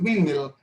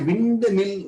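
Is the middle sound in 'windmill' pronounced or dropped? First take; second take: dropped; pronounced. First: The middle d sound is dropped. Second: The middle d sound is fully pronounced. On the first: The speaker calls it right. "we say just windmill" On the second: The speaker calls it wrong. "We don't say windmill"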